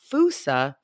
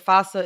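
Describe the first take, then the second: First: It is pronounced the local Malagasy way. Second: It is pronounced the English-speaking way. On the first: "how it's pronounced on Madagascar" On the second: "the pronunciation in the U S and the U K"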